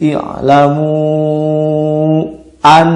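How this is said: The reading is cut with a break before 'an'. The speaker calls it wrong. "tidak boleh sakta"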